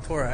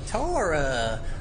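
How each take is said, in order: First: It is said in a plain general accent. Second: It is said in a Southern US accent. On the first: "let me just say they call it the Torah" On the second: "If I was in the South"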